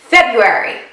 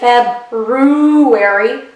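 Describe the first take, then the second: First: The first r sound is left out. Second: The first r sound is clearly pronounced. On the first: The speaker calls it right. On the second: The speaker calls it wrong.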